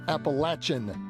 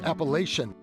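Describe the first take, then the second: First: The word is said the local way. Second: The word is said the Northern way. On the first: This is how people from the region say it. "the locals pronounce it" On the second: This is how outsiders from the North say it. "Us Northerners have always pronounced it"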